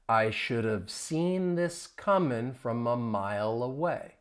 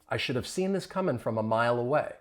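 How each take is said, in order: First: The sentence is spoken slowly. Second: The sentence is spoken at normal speed. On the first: "I'm going to say it slowly" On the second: "now let's say it more at a normal speed"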